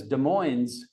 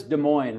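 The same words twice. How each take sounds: First: "Des Moines" as "duh-MOYNZ"; sounded final Z. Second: "Des Moines" as "duh-MOYN", no Z; silent final S. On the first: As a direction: end "Des Moines" on a clear Z. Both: Shown as a demonstration. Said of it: "as if there's a Z on the end".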